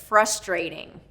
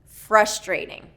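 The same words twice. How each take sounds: The two takes are said the same way.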